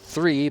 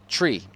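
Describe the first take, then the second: First: The word starts with a soft 'th' sound. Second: The word starts with a hard 't' sound. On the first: The speaker calls it wrong. "and not three" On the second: The speaker calls it right. "but tree"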